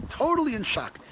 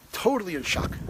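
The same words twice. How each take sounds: First: Totally in shock, pitched up on the repeat; emphatic repeat. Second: Said in the usual way. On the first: Real, not acted. Recalling the debate, stresses how shocked he was.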